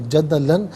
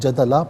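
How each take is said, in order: First: The word ends with an -an sound. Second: The word ends with a long a sound. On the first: The reading continues without stopping. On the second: The reader stops at this word.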